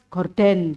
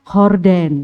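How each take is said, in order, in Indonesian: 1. Kata ini dimulai dengan bunyi g keras. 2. Kata ini dimulai dengan bunyi h yang berhembus. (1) "Kalau kita kan orang Indonesia gorden gitu ya" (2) "Kalau sana horden"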